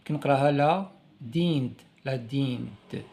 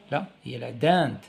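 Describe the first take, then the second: First: لا دينت sounded out wrongly like a beginner; child's misreading. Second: لا دانت said properly with a nasal dent; correct reading. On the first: Teacher imitating a child misreading لا دينت. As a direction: read la dent as a first-time child. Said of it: "طفل يقرأ أول مرة". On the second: Teacher correcting the child's reading to لا دانت. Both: Shown as a demonstration.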